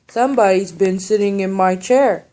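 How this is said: It is said in a great big voice.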